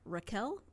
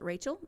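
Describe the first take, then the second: First: The middle consonant is a k sound. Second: The middle consonant is a ch sound. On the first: The speaker calls it right. "there's no ch sound in their language, and so her name is actually pronounced Raquel" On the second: The speaker calls it wrong. "I pronounce it Rachel"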